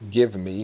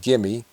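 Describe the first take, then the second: First: Both words are pronounced separately and fully. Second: The words are run together as 'gimme'. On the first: "Gimme is short for give me" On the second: "so gimme"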